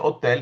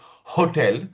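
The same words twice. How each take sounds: First: The word begins with no H sound. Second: The word begins with a breathy H sound. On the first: The speaker calls it wrong. "the candle remain still intact" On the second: The speaker calls it right. "the candle should literally blow off"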